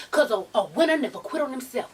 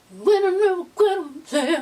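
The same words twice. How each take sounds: First: Said in the usual way. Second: A touch of a cry in the voice; excited quote. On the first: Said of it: "when she be like". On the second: Retold or imitated. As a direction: say it higher and louder, moved. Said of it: "repeating [name]'s line".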